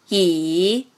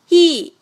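First: The pitch dips low, then rises. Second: The pitch falls sharply from high to low. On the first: "三声拐弯" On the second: "四声降"

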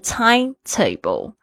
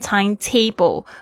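First: The stress falls on the first part, time. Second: The stress falls on the second part, table. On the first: The speaker calls it right. "其实你要比较强调时间" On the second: The speaker calls it wrong. "不要念成timetable"

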